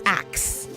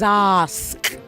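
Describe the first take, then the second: First: The k sound comes before the s. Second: The s sound comes before the k. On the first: The speaker calls it wrong. "not k before s" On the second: The speaker calls it right. "It is s before k"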